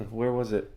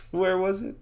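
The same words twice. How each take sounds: First: Softly searching the memory; pondering. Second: High-pitched, rising self-questioning; straining to recall. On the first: Elmo tries to recall the door's location, softly pondering. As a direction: murmur it to yourself, puzzling. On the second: Elmo racks his memory for the door, high and questioning. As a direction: lift it high as you rack your memory. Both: Acted.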